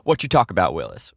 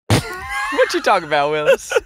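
First: It is said in the speaker's ordinary voice. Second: It is said in an imitated character voice.

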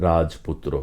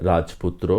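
Both takes have the same delivery.

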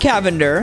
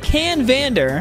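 First: The name has no n sound before v. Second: The name has an n sound before v. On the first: The speaker calls it wrong. "not the Cavender" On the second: The speaker calls it right. "The Canvander"

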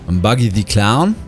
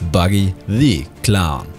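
First: The middle word is said as a plain 'the'. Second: The middle word sounds like the letter D.

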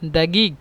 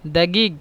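Both takes have the same delivery.

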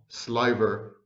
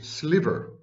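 First: The first vowel is a long eye sound. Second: The first vowel is a short i sound. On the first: The speaker calls it wrong. "not sliver, as I had mispronounced it" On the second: The speaker calls it right. "in modern accepted pronunciation is sliver"

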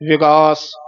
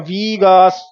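First: The first vowel is a short i sound. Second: The first vowel is a long i sound. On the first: The speaker calls it right. "ਸਿਹਾਰੀ ਬੋਲਣੀ ਹੈ ਵਿਗਾਸ" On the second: The speaker calls it wrong. "ਵੀਗਾਸ ਬਿਹਾਰੀ ਵੀ ਨਹੀਂ ਲਾਉਣੀ"

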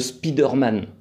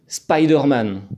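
First: The name is said with a French accent. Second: The name is said with an American accent. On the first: This is how the French say it. "comme on le prononce bien à la française" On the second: This is how Colombians say it. "avec un super accent euh, bien à l'américaine"

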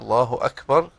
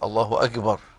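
First: The consonant before b is a k sound. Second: The consonant before b is a g sound. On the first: The speaker calls it right. "هذا هو النطق الصحيح لهذه الكلمة" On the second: The speaker calls it wrong. "فينطق الكاف جيم"

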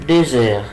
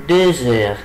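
The two takes are said the same way.

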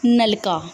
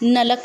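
First: The word ends with a final 'a' vowel. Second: The word ends on a consonant with no vowel. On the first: The speaker calls it right. "नलके नूं नलका" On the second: The speaker calls it wrong. "नलक भी बोलिया किसी ने"

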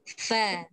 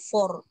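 First: The vowel is thin and open. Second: The vowel is thickened and rounded. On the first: The speaker calls it right. "Pastikan fa tu tetap dengan fa" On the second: The speaker calls it wrong. "Salahlah for"

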